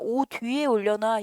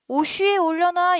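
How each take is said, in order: First: A d sound links into the next syllable. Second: The s sound links into the next syllable. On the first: The speaker calls it right. "옷 뒤라고 발음하는데요?" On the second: The speaker calls it wrong. "너네 오쉬 이래?"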